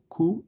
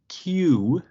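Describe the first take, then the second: First: The letter name is said the Spanish way. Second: The letter name is said the English way. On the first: "but it's Q in Spanish" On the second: "like Q in English"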